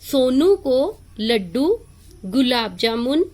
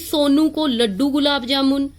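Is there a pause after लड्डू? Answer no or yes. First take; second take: yes; no. First: There is a short pause after Laddu. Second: The words run on without a pause. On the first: The speaker calls it right. "हम थोड़ा रुकेंगे।" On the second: The speaker calls it wrong. "हम ऐसे तो नहीं पढ़ेंगे"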